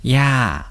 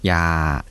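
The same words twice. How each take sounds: First: The syllable is said with a falling tone. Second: The syllable is said with a low tone. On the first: Paternal grandmother. "これが下がる声調だと" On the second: Don't. "声調は低い声調です"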